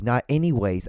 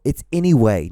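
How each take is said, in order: First: "anyways" with an s tacked on the end, rejected; wrong form ANYWAYS. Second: "anyway" with no s on the end, firmly stressed; corrective ANYWAY. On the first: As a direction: show the mistake: "anyways", ending on a z sound. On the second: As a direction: correct them: "anyway", ending clean on WAY. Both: Shown as a demonstration. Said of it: "it's anyway, not anyways".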